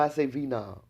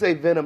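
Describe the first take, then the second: First: It is said in a Kinston country accent. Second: It is said with a standard pronunciation.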